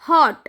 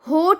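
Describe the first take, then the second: First: The vowel is a short 'a'-like sound. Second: The vowel is a long 'o' sound. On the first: The speaker calls it right. "छोटी आवाज निकलेगी। ... अ वाली।" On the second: The speaker calls it wrong. "आपको ये होठ नहीं बोलना।"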